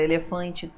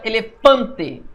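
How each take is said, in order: First: Said in the usual way. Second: Elefante slow, with FAN drawn out; e-le-FAN-te, heavy stress in Elefante. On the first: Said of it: "tudo certo". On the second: Shown as a demonstration. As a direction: punch the third syllable of Elefante. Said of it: "Fã é o mais forte".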